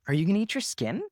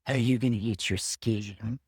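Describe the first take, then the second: First: It is said in his normal voice. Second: It is said in a creepy Hannibal Lecter voice.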